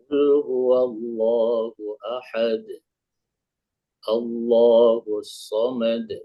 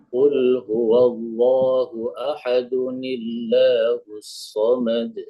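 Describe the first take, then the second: First: It stops after ahad, then restarts at Allahus. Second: It runs on without a stop, adding 'nun'.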